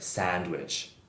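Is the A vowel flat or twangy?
flat. The A vowel is flat. It is how people in Western Canada say it. "we have more like a flatter ah sound"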